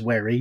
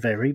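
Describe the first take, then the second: First: The first sound is a W. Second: The first sound is a V. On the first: The speaker calls it wrong. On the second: The speaker calls it right.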